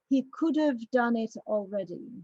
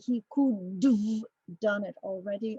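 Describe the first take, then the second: First: Could've is said smoothly with a short schwa. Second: Could've is forced out with exaggerated effort. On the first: The speaker calls it right. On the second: The speaker calls it wrong.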